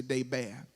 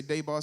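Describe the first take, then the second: First: Debar said as DAY-bair; second pronunciation variant. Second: Debar said as DAY-bah; first pronunciation variant. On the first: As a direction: end debar on a flatter A, as in bare. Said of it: "some people say debar". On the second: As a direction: end debar on an open AH. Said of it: "Some people say debar, some people say". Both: Shown as a demonstration.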